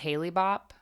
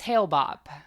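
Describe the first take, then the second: First: The first word has two syllables. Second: The first word has one syllable. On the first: The speaker calls it wrong. "I think I said Haley Bop" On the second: The speaker calls it right. "I think it's Hale Bop"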